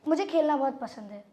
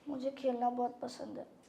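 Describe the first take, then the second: First: It is said in a neutral tone. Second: It is said in a sad tone.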